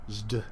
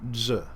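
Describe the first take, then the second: First: A z sound is followed by a d. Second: A plain z sound is said alone. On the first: This is the older pronunciation. "Originally, it was probably pronounced zd" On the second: This is the later pronunciation. "came to be pronounced the other way around"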